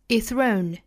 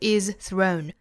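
First: The z merges into the th and disappears. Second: The z at the end of is is pronounced. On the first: The speaker calls it right. "而是 is thrown" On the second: The speaker calls it wrong. "我们不把它读成 is thrown"

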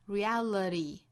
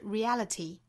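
First: The t is a quick flap. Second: The t is strongly released with a burst. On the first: "美音是 reality" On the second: "英音是 reality"

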